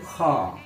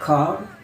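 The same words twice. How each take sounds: First: It has a British accent with the r dropped. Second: It has an American accent with the r heard. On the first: "Beda dengan British English, R-nya itu tidak kedengaran" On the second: "American itu biasanya R-nya itu selalu kelihatan"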